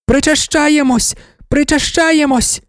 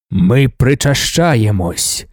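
First: High, slow ecstatic chant; women shouting. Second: Low, slow solemn declaration, stress on Ми; Leto intoning. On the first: Worshippers chant the communion cry, high and drawn out. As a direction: chant it out as one fervent crowd. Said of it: "кричали жінки". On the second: Emperor answers the chanting women, low and slow with Ми stressed. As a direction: intone it like a god-king leading the rite. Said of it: "сказав Лето". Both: A narrator's reading.

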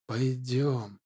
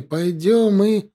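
First: Soft, hushed beckoning; quiet luring call. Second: Rising insistent call. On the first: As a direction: lure him in quietly. Spirit luring him softly. (тихий манящий зов) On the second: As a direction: demand he follow. (громче и настойчивее) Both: Acted.

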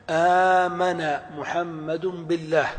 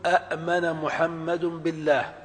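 First: آمن said with a long opening aa; آمن with a drawn-out long aa, slowly; correct form. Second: أأمن with two separate glottal stops; أأمن split into two hamzas, a-amen; wrong form. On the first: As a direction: lengthen the first vowel of آمن. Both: Shown as a demonstration. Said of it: "ولا يجوز".

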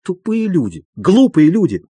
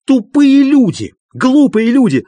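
First: Bitter repetition, less than a shout; muttered anger. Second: High, loud raging insult; furious shouting. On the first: Doctor alone on the sofa, still fuming. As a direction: keep fuming to yourself. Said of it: "долго ещё повторял". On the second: Doctor raging at his two visitors, furious shouting. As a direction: hurl each insult at full pitch. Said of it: "продолжал кричать Андрей Ефимович". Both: A narrator's reading.

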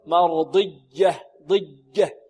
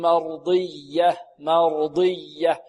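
First: مرضية ending like "ḍijja"; faulty plosive ya in مرضية; ya hardened to jim. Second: مرضية with a held, stressed yy; pressed doubled ya. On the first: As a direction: turn the doubled ي of مرضية into a hard j. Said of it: "هذه شدة". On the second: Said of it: "لا بد من النبر والضغط". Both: Shown as a demonstration.

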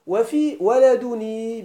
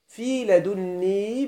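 First: ولدني with a single n, wa-ladunī; measured verse reading, light n in ولدني; lightened n. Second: لدني with a held double n, ladunnī; measured verse reading, heavy n in لدني; doubled n. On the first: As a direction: read ولدني slowly with no doubled nūn. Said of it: "بالتخفيف". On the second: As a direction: read لدني slowly, doubling the nūn. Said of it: "بالتشديد". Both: Shown as a demonstration.

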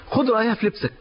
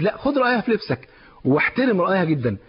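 First: خد hit higher with a falling tune; preacher stressing خد at the start; stress on take. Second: لا then خد pressed firmly; urging, خد weighted and falling; stress on take again. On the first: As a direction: lean on خد, then let خد رأيها في لبسك fall. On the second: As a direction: drive home خد in لا، خد رأيها with a long falling close. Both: Shown as a demonstration.

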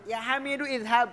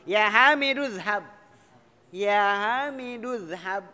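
First: "Hamidu izhab" with the i fully sounded; high, brisk "Hamidu-izhab", both vowels heard; hamzah wrongly kept. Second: "Hamidu, izhab" linked as Hamiduz-hab, no i; loud, drawn-out "Hamidu, izhab" merged into Hamiduzhab; read in one go. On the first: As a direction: say "izhab" with its opening i right after "Hamidu". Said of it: "Nggak boleh". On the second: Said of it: "Kalau mau dibaca sekaligus". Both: Shown as a demonstration.

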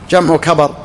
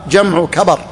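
No difference in how they are said.

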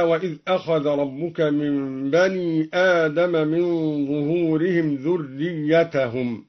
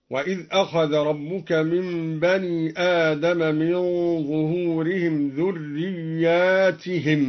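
First: ذريتهم short, "dhurriyyatahum"; ذريتهم بالإفراد. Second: ذرياتهم with long ya and kasra, "dhurriyyaatihim"; ذرياتهم بالمد. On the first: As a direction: read ذريتهم singular with fatha on t. (ذريتهم بالإفراد ونصب التاء) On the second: (ذرياتهم بمد الياء وكسر التاء) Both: Shown as a demonstration. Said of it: "قرأ الدوري بمد الياء وكسر التاء".

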